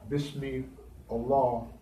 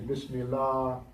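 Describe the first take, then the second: First: The words are said separately, each one distinct. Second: The words are run together into one word. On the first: This is the proper reading. The speaker calls it right. "That's the proper way of saying it" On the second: This is the altered reading. The speaker calls it wrong. "But they would say"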